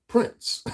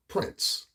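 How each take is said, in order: First: High squeal of the name, louder; falsetto squeal. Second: Breathy whisper of the name. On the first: Vlogger squeals the singer's name to his viewers, falsetto. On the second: Vlogger whispers the singer's name to his viewers, hushed. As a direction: say it under your breath. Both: Acted.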